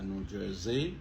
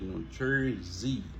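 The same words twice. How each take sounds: First: The stress does not fall on 'Jer'. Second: The stress falls on the 'Jer' syllable. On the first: The speaker calls it wrong. "c'est pas New Jersey" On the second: The speaker calls it right. "nous montons sur Jer"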